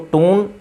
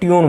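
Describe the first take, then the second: First: It is said with no y glide: toon. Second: It is said with a y glide: tyoon. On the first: The speaker calls it wrong. "टून तो पढ़ना थोड़ा गलत लग रहा है" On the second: The speaker calls it right. "तो ट्यून बोला जाता है"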